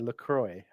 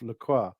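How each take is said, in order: First: The name ends with an 'oy' sound. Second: The name ends with a 'wah' sound. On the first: This is the Americanized version of the name. "there's the water, isn't there" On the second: This is the original French name. "an Americanization of LaCroix, which literally translated means the cross"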